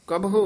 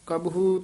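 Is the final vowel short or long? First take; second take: short; long. First: The final u vowel is short. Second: The final u vowel is long. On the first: The speaker calls it right. "कबहु उच्चारण करना है, औंकड़ है" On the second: The speaker calls it wrong. "ना कबहू तो दलैंकड़ लग जाएंगे"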